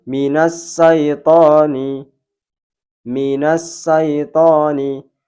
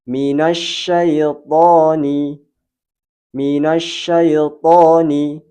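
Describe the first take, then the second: First: Slow syaitoni with a thin s instead of sh; shin read as sin. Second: Slow Minasyaitoni with a full sh filling the mouth; correct shin. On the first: Teacher showing shin wrongly read as sin. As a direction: say syaitoni with a sharp s. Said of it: "rawan dibaca sin". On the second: Teacher demonstrating the right shin. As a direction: let the sh in Minasyaitoni spread through the mouth. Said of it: "Kita contohkan yang benar". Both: Shown as a demonstration.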